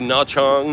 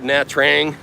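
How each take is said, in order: First: The second word begins with a 'ch' sound. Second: The second word begins with a 'tr' sound. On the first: The speaker calls it right. "you're supposed to say Nha Chang" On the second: The speaker calls it wrong. "I call it Nha Trang"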